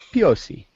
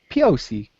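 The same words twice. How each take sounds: First: It is said in a French accent. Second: It is said in a Southern accent. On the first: "it's like a French accent" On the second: "maybe if you're a Southern"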